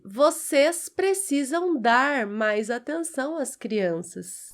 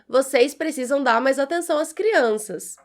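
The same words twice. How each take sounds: First: The final R of dar is clearly pronounced. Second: The final R of dar nearly disappears.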